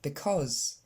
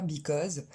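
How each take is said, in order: First: Because said with an e sound in the first syllable, be-cause; correct vowel. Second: Because said with an i sound in the first syllable, bi-cause; wrong vowel demo. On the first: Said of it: "mais c'est un e". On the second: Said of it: "c'est pas un i, comme vous avez tendance à le dire". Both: Shown as a demonstration.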